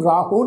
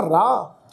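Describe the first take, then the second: First: ਰਾਹੋ in two syllables, ending in a full o; added o ending. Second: ਰਾਹ as one long syllable, "raah", without an o; no final vowel. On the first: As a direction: sound the final vowel, "raa-ho", in ਰਾਹੋ. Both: Shown as a demonstration. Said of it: "ਇਹਨੂੰ ਰਾਹੋ ਨਹੀਂ ਪੜ੍ਹਨਾ".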